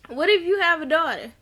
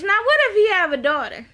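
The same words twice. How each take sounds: First: Said in the usual way. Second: High, quick, emphatic question; raised-pitch incredulous call-out; pointed challenge. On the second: Acted. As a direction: throw it out as an excited challenge. Challenges character, then repeats it.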